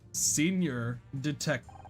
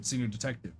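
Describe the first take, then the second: First: It is said slowly and deliberately. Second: It is said at normal speed.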